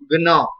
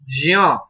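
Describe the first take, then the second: First: The syllable begins with a G sound. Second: The syllable begins with a J sound. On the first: The speaker calls it right. "No, it's wrong. Gna" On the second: The speaker calls it wrong. "but that's absolutely wrong"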